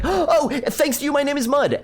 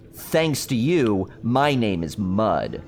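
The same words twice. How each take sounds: First: High, eager blurt of the punchline; imitating a kid blurting the punchline; excited kid. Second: Slow, drawn-out joke delivery; retelling mother's joke at a slow deadpan pace; deadpan punchline. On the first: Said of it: "so I was all excited". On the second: Retold or imitated. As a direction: let the punchline land slowly. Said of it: "what did the dirt say to the rain".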